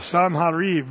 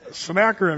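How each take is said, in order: First: The middle consonant is a harsh throat sound. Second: The middle consonant is a plain k-sound. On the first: This is how Hebrew speakers say it. The speaker calls it right. "spit's got to fly when you got to say the part" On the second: This is the usual English way of saying it. The speaker calls it wrong. "you guys call him what?"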